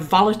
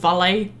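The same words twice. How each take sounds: First: It is said with an English pronunciation. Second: It is said with a French pronunciation. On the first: "they like deliberately pronounce them wrong" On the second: "instead of"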